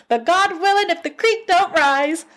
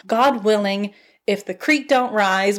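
First: Much higher, playful singsong take on the saying; hammed-up high-pitched take on a country saying; mock folksy saying. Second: Said in the usual way. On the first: Shown as a demonstration.

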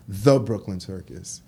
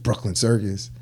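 First: THE set apart and emphasized before Brooklyn Circus; stress on THE. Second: Said in the usual way. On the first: Shown as a demonstration. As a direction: lean on the word The, then say the name. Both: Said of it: "not just Brooklyn Circus".

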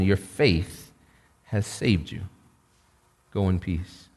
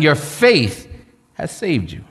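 First: Soft, low and gentle; tender blessing. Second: Said in the usual way. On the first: Retold or imitated. Jesus gently sends the forgiven woman away, soft and low. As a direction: send her off softly in peace. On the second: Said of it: "repeats the line for emphasis".

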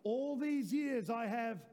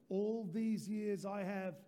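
First: Louder and slower, leading the church; a louder second take, slow and rallying; louder slow repeat. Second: Slow, deliberate words for the church to echo; slow, steady reading; slow call-and-response. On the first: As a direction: lift it up for everyone to repeat. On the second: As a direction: say it slowly so they can join in. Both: Shown as a demonstration. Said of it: "let's do it one more time".

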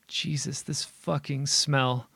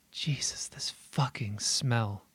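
First: Choked, disgusted, higher. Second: Eerie unvoiced whisper, slow; hushed whisper. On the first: Acted. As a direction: spit it out in disgust. Disgusted at the stench. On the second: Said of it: "quiet, hushed voice murmurs".

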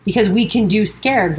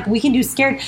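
First: Said in the usual way. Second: Emphatic rising "can" in "we can do scared"; stress on can. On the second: Real, not acted. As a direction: lean up hard on the word "can".

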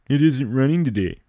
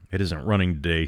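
First: Higher, louder mocking imitation of Corey; mocking echo. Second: Said in the usual way. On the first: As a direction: parrot his words back with a sneer. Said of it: "Adams laughed". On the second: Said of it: "answered as if shaken out of a dream".

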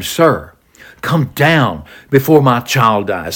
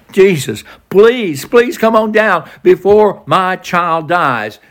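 First: Said in the usual way. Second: Pitched up high and slowed down, pleading hard; begging. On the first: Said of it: "The official says to him". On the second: Retold or imitated. The official on his knees begging Jesus, higher and slower. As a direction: beg with each please. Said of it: "He's begging him".

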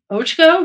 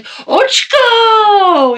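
First: "Ochko" said as a puzzled question with a rising end; questioning repeat. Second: Very high, loud drawn-out shout of "Ochko"; yelling his nickname. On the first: Asking the client back "Ochko" with a puzzled rise. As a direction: ask back "Ochko" unsure, tune rising. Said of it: "I was like". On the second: Calling down the hall to Steve with a long high yell. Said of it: "when I see Steve, I'll be like". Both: Retold or imitated.

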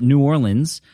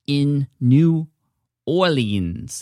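First: Said in the usual way. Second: Attempted New Orleans accent, drawn out; badly faked Southern-style New Orleans accent. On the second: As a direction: put on a hammy, unsure New Orleans accent. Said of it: "the worst accent I've ever done".

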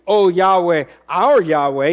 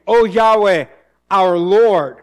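First: Said in the usual way. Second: "O Yahweh, our Lord" louder, with "Lord" hit hard as the contrast; correcting a misreading, louder, stress on "Lord"; stressed correction. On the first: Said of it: "he's not saying". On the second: Shown as a demonstration. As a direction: land firmly on "Lord" in "our Lord". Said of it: "He is saying".

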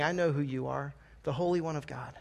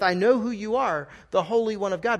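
First: A demon naming Jesus under its breath; cold demon recognition. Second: Higher, open and sincere; profession of faith. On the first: Demons' cold recognition, not faith. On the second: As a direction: say it as a believer confessing. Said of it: "if it was said in a different tone". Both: Shown as a demonstration.

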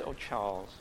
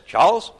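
First: Much softer, lower, fond "Oh, Charles,"; mock tender wife. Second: Higher, louder, rising "Charles?" like he's been caught out; mock wife's scolding call. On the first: Wife speaking fondly to her husband, mock tender. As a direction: coo it like an affectionate wife. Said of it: "And if she says". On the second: Wife who knows he's done something wrong, mock scolding. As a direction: imitate a wife calling husband out. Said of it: "If she says".

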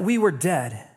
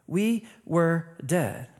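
First: Said in the usual way. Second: "We were dead" slow and softer, word by word; solemn emphatic repeat. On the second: Real, not acted. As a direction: let each word of "We were dead" land separately. Repeats key phrase slowly for emphasis.

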